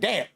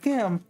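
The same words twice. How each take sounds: First: It sounds mocking and belittling. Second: It sounds impressed and admiring. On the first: The listener is being looked down on. "Why are you trying to demean me and say damn?" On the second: The listener is being praised. "No, I meant damn. Like, damn, that's great"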